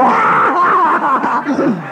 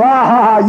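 First: Much higher, shouted laugh thrown back; laugh right back. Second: Rude loud ha ha from the doorway; mocking laugh. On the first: Retold or imitated. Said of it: "you stand there and go". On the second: Man at the door scoffing at the visitor, rude laugh. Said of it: "he goes".

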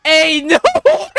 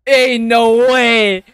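First: High cracking exclamation; real astonished howl; wild disbelief. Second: Slow, drawn-out disbelief; real stunned exclamation. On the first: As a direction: let the disbelief shoot upward. Disbelief, repeated more wildly. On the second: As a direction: stretch it out, astonished. Disbelief at fight. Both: Real, not acted.

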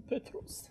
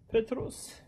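First: Whisper. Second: Said in the usual way. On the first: Shown as a demonstration.

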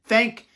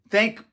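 Both takes have the same delivery.

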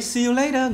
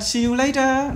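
First: High American-style "See you later"; American flapped "later"; American pronunciation. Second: "See you later" the British way, true t in "later"; high British-style "See you later"; British crisp t in "later"; British pronunciation. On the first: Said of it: "Người Mỹ". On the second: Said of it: "Người Anh". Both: Shown as a demonstration.

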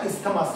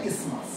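First: ইসথামাস with the th sounded, "is-tha-mas"; wrong pronunciation. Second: ইসমাস as "IS-mas", th silent; correct pronunciation. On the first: Teacher warns class off this version, wrong pronunciation. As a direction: misread ইসথামাস by its spelling, three syllables. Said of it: "উচ্চারণটা ইসথামাস না". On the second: Teacher gives class the proper version, correct pronunciation. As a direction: say ইসমাস in two syllables, no t or th. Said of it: "উচ্চারণটা হচ্ছে ইসমাস". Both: Shown as a demonstration.

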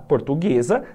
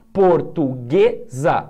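First: Said in the usual way. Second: Portuguesa stretched out slowly, leaning on ue; slow syllable stress. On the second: Shown as a demonstration. Teacher sounding out a word for students, slow and drawn out. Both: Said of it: "é paroxítona".

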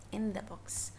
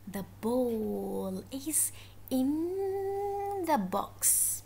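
First: Said in the usual way. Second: "in" held very long; stress on IN. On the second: Shown as a demonstration. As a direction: stretch out the word "in". Teacher stretches the preposition being taught.

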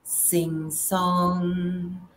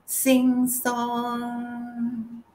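First: Said in the usual way. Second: "sing song" lifted higher with a lilting, musical swing. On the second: Shown as a demonstration. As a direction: make "sing song" sing and bounce upward. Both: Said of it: "It's all about resonance".

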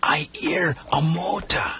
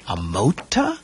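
First: Slow, higher, hushed alertness; tense, drawn-out words as if straining to listen. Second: MOTOR rising into a question; questioning echo. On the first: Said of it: "said tensely". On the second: Boy questions what Timothy heard. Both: A narrator's reading.

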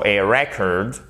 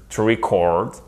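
First: Slow "record" as REC-ord; stress on first syllable. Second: Slow "record" as re-CORD; long stressed CORD in "record"; stress on second syllable. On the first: Teacher's final recap of the noun, first-syllable stress on "record". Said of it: "l'accent tonique est sur la première syllabe". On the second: Teacher's final recap of the verb, second-syllable stress on "record". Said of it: "l'accent tonique est sur la seconde syllabe". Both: Shown as a demonstration.

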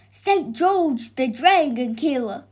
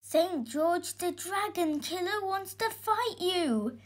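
First: Loud villager proclaiming news; excited announcement. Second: Put-on high, softer breathless boy; gasped warning. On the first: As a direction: announce the famous arrival to everyone. Villager announces the dragon killer's arrival. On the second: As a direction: gasp out the alarming news. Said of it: "gasped the boy". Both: A narrator's reading.

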